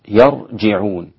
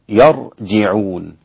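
Both takes have the same delivery.

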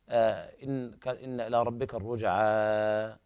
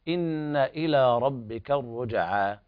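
First: The final vowel is stretched much longer. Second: The final vowel is held for two counts. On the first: The speaker calls it wrong. "الإنسان لا يقول ... هذا خطأ" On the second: The speaker calls it right. "وهنا الألف المدية تمد مدا طبيعيا مقدار حركتين"

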